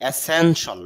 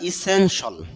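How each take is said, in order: First: The word begins with an 'e' sound. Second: The word begins with an 'i' sound. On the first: The speaker calls it wrong. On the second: The speaker calls it right.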